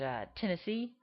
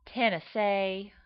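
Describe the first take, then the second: First: Said in the usual way. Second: Slow Tennessee drawl as a woman; Tennessee woman's accent. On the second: Shown as a demonstration. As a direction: draw Tennessee out like a Southern lady. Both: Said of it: "my Tennessee becomes a woman".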